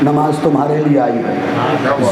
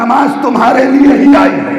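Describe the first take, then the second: First: The sentence is said softly and gently. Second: The sentence is said loudly and forcefully. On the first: "अगला जुमला आहिस्तगी से बोलूंगा" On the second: "ये जुमला जोर से बोला है"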